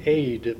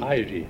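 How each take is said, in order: First: The name is said the Norwegian way. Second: The name is said the American way. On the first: This is how it is said in Norwegian. "Say it for Norse" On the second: This is how people say it here. "Here they say it Ide"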